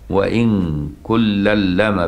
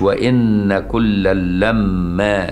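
First: The m in lamma is short and single. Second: The m in lamma is long and doubled. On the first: "بالتخفيف" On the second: "مش"

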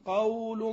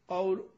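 First: The diphthong in the word is drawn out long. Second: The diphthong in the word is kept short. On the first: The speaker calls it wrong. "هل أنا أقول قول معروف؟" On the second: The speaker calls it right. "أقول قول ما في"

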